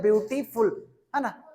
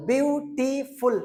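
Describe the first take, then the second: First: ब्यूटीफुल with the syllables closer together; teacher demonstrating a quicker reading of ब्यूटीफुल; read more quickly. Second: ब्यूटीफुल slowly broken into three beats; teacher spacing out each part of ब्यूटीफुल; split into syllables. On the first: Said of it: "जल्दी पढ़ते हैं तो पढ़ते हैं". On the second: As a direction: sound out ब्यूटीफुल with a gap after each syllable. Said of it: "उसी तरह से इसको पढ़ो". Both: Shown as a demonstration.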